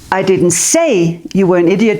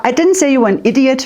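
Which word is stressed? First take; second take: say; idiot. First: The word 'say' carries the main stress. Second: The word 'idiot' carries the main stress. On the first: It was shown without words. "but I stood like this" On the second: A different insult was used. "maybe I said crazy, but not idiot"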